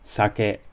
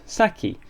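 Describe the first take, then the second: First: It is said with a Japanese pronunciation. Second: It is said with an English pronunciation. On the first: "Japanese sake" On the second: "pronounced saki instead of the"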